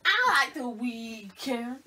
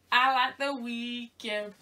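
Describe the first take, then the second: First: Drawn-out voice. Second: Slow. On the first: Repeat, slower, altered voice. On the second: Slow drawn statement, repeated. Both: Real, not acted.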